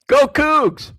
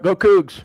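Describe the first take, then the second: First: It is said with more enthusiasm. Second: It is said with little enthusiasm.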